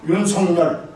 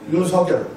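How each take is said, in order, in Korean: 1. 마지막 음절 앞에 ㄴ 소리가 들어갑니다. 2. 마지막 음절 앞에 ㄴ 소리가 들어가지 않습니다. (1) "우리 회장님 발음 정확히 잘 하셨어요" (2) "방송인들은 뭐라고 그러는 줄 아세요?"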